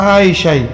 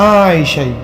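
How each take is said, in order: No difference in how they are said.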